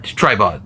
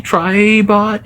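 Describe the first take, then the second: First: Said in the usual way. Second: High, unsure rising question. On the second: Real, not acted. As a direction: ask the name, not sure of it. That's his name.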